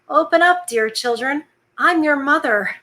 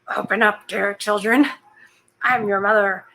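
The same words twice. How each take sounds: First: It is read in the narrator's normal voice. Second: It is read in a put-on gruff voice. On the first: The speaker calls it wrong. "Oh, whoops" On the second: The speaker calls it right. "let me do the voice"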